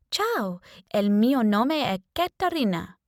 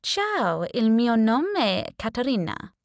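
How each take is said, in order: First: Put-on first try at an Italian accent, a bit higher; testing an Italian accent in the mirror; trial Italian accent. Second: Put-on confident Italian accent. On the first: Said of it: "I had to choose a nationality, a language, an accent". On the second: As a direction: greet the housemate in a smooth Italian accent. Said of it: "The Italian accent came out perfect".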